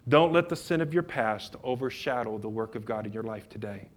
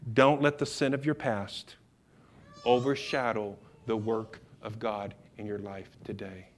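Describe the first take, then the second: First: The sentence is spoken quickly. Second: The sentence is spoken slowly. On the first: The speaker calls it wrong. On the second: The speaker calls it right.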